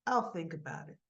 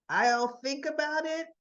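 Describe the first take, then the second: First: Low, understated noncommittal reply. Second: Higher, louder emphasis on "I'll think about it"; emphatic correction. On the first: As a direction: give a guarded, offhand answer. Father answers daughter's plea. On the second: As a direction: set "I'll think about it" apart as a firm quote. Father corrects daughter's hopeful reading. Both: Retold or imitated.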